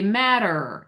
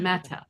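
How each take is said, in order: First: The T sounds like a soft D. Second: The T is a crisp, unvoiced T.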